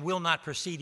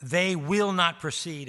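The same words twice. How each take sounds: First: Said in the usual way. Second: "will not precede" slow and firm, each word weighted; emphatic negation. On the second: Shown as a demonstration. Preacher stressing the verse's strongest negation, slow and weighted. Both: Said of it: "It's called emphatic negation".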